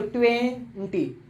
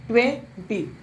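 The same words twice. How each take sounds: First: ट्वेंटी broken in two with a small stop in the middle, slow; ट्वेंटी with a clear break between its two halves; split in two parts. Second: Said in the usual way. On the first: Shown as a demonstration. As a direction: say ट्वेंटी as twen, pause, ty. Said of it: "मैंने एक साथ नहीं बोला". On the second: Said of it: "जैसे मैं दो से एक शब्द बोलता हूँ".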